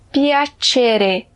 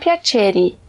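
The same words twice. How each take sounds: First: The final vowel is an E sound. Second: The final vowel is an I sound. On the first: The speaker calls it right. "tem que terminar com E" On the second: The speaker calls it wrong. "e não piacere"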